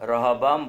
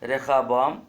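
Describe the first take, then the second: First: The middle consonant is a plain h. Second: The middle consonant is a harsh kh. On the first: The speaker calls it wrong. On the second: The speaker calls it right.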